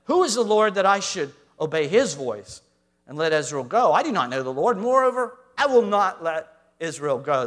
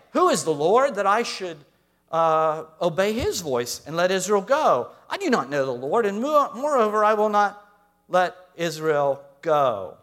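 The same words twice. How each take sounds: First: Loud, stubborn refusal; preacher rereading Pharaoh's refusal, loud and defiant. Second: Loud, scornful king who won't bow; preacher voicing Pharaoh refusing Moses, loud and defiant. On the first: Retold or imitated. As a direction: plant your feet and refuse. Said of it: "That's what he says in verse two". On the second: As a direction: throw the challenge back with contempt. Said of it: "what does Pharaoh say?".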